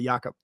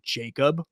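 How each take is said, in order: First: The name has a German pronunciation. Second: The name has an English pronunciation. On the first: The speaker calls it right. "pronounce it properly the German way" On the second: The speaker calls it wrong. "do they all call you Jacob"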